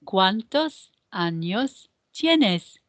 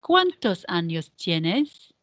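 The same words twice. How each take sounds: First: "¿cuántos años tienes?" slowly, small gaps between words; measured repeat-after-me delivery of the question; slow choral model. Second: "¿Cuántos años tienes?" in one phrase, rising at the end; joined-up question model. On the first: Teacher repeats the question otra vez, slow word-by-word model. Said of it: "Otra vez". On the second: Teacher models the whole question for practice, joined up with questioning rise. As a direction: run the words together, lifting "tienes" as a question. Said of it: "let's practice the pronunciation of this question".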